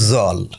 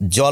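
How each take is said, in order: First: The word begins with a 'z' sound. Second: The word begins with a 'j' sound. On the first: This is a regional pronunciation. "অনেক আঞ্চলিক উচ্চারণেও ... বলছে জল" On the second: This is the standard pronunciation. "জল না বলে"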